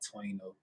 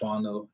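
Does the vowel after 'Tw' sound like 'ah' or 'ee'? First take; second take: ee; ah. First: The vowel after 'Tw' sounds like 'ee'. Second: The vowel after 'Tw' sounds like 'ah'. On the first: The speaker calls it wrong. "and not Twino" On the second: The speaker calls it right. "I pronounce my stage name... it's [name]"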